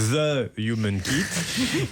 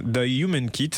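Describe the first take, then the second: First: The Human Kit said slowly, the French way, with a laugh; mock-French The Human Kit, drawn out and laughing. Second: The Human Kit said with an English h and vowels; host first says The Human Kit in a try at English. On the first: Host jokes about his accent, The Human Kit said French-style. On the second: Host names the guest's group, The Human Kit, in English. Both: Shown as a demonstration. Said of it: "alors, à la française".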